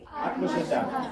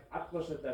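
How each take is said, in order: First: આત્મશ્રદ્ધા stretched slowly, every syllable held; drawn-out answer. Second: Said in the usual way. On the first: Shown as a demonstration. Teacher drills the class on the word, drawn out slowly. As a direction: drag out આત્મશ્રદ્ધા slowly like a class chanting it back. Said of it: "શું કહેવાય?". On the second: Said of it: "આને શું કહેવાય?".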